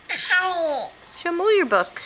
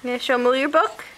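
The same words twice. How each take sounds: First: Slow, laughing prompt. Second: Said in the usual way. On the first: Real, not acted. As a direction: stretch each word slowly while laughing. Repeats to toddler, slowed.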